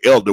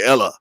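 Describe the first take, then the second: First: The word ends with a clear d and r. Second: The d and r are dropped, ending in a vowel. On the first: This is the standard form the community did not use. "we didn't say Elder" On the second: This is how the community actually said it. "we just say Ella"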